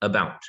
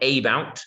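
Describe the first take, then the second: First: The first vowel is a reduced schwa. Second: The first vowel is a full vowel. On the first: The speaker calls it right. "it's uh, about" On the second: The speaker calls it wrong. "it's not about"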